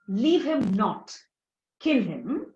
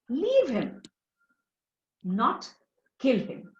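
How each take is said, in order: First: The pause comes after the word not. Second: The pause comes after the first him. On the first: The person should be killed. "at this comma over here" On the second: The person should be spared. "supposing I shift the comma"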